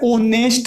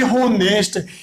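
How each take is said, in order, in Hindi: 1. शब्द सीधे स्वर ध्वनि से शुरू होता है। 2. शब्द की शुरुआत में साफ़ सुनाई देने वाली "h" ध्वनि है। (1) "ओनेस्ट ही होता है" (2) "अपन ऐसे नहीं बोलेंगे होनेस्ट"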